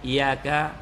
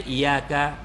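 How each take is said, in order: Both takes have the same delivery.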